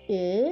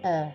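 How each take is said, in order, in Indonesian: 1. Vokalnya tertutup, bibir dibulatkan rapat. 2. Vokalnya terbuka, bibir dibulatkan longgar. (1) "mulut kamu membentuk huruf U tapi yang kamu keluarkan bunyi E" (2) "mulut kamu membentuk huruf O, tapi yang kamu keluarkan bunyi E"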